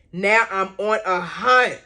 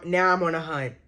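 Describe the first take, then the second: First: Slower, each word punched, HUNT hit hard; emphatic resolve. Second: Said in the usual way. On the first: Real, not acted. Fan searching for the missed video, emphatic on "hunt". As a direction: lean on "hunt" with determination.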